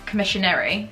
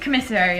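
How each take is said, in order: First: The word has an extra 'shun' sound inside. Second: The word has no 'shun' sound in it. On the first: The speaker calls it wrong. "and not commissionary" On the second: The speaker calls it right. "So it is commissary"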